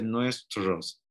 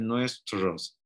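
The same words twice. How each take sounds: First: It is said with a Bolivian-style pronunciation. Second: It is said with a Bolivian-style pronunciation.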